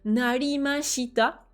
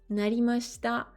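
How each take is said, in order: First: The i after sh is fully voiced. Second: The i after sh is dropped and devoiced. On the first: The speaker calls it wrong. "on va pas dire narimashita" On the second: The speaker calls it right. "on n'insiste pas sur le shi"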